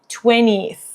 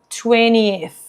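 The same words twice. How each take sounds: The two takes are said the same way.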